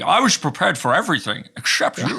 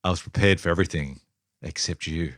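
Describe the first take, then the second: First: Sean Connery style Scottish; Scottish accent. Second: Low, sultry line read; sultry movie voice. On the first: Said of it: "at least try to". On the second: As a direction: purr it like a film seductress. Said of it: "Whose, whose voice are you doing there". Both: Acted.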